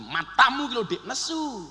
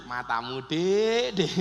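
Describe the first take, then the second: First: Raised, scolding exclamation; mock snapping. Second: Playful, coaxing endearment; joking tease. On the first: Husband barking at his wife, mock-angry snap. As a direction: snap it at your wife, half in earnest. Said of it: "Jenengan getak bujin". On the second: Husband joking with his wife, playful tease. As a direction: tease your wife with it affectionately. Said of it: "Tapi lak guyon". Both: Shown as a demonstration.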